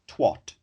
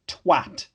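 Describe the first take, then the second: First: The vowel sounds like an O. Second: The vowel sounds like an A. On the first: This is the American way of saying it. The speaker calls it wrong. "How does it become twat? ... There's no O in it" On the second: This is the non-American way of saying it. The speaker calls it right. "It is very clearly an A"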